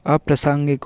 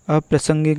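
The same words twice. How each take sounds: First: अप्रासंगिक with long "saang"; अप्रासंगिक with a long aa before ng; correct pronunciation. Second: अप्रासंगिक with short "sang"; अप्रासंगिक with a short vowel before ng; wrong pronunciation. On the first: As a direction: say अप्रासंगिक as "aprasaangik". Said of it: "अप्रासंगिक होगा". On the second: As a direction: say अप्रासंगिक as "aprasangek". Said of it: "अप्रासंगिक नहीं". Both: Shown as a demonstration.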